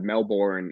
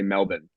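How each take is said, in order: First: The second syllable has a strong, clear R. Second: The second syllable is reduced, almost like bun. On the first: This is how Americans say it. "you guys hit your R's really hard" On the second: This is how Australians say it. "we just say Melbourne. It's almost like it's bun"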